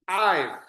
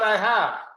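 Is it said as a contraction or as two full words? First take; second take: contraction; full words. First: It is said as one contracted syllable. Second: It is said as two full words. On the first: The speaker calls it right. "it's I've" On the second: The speaker calls it wrong. "it's not I have"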